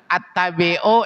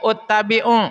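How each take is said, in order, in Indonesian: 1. Kata ittabi'u diawali dengan vokal a. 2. Kata ittabi'u diawali dengan vokal u.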